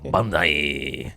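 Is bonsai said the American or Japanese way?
American. It is pronounced the American English way. "We're fucking American, dog"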